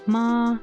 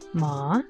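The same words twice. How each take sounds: First: The pitch stays high and level. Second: The pitch rises from mid to high. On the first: "the first tone, which is uh like a flat, um a high tone" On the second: "the second tone, which is a rising tone"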